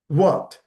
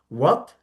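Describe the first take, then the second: First: It sounds encouraging, prompting someone to continue. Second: It sounds puzzled, asking for a repeat. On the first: The listener wants the other person to go on. "Then you prompt by saying what" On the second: The listener did not understand what was said. "When you don't understand what you have been told"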